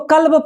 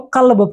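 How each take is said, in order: First: "कल्ब" with an ordinary front k; k without nukta. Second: "कल्ब" as qalb, k made back in the throat; nukta q sound. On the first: Teacher contrasting two words for students, "कल्ब" with plain k. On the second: Teacher contrasting two words for students, "कल्ब" with throaty q. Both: Shown as a demonstration. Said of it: "इसको कल्ब पढ़ेंगे".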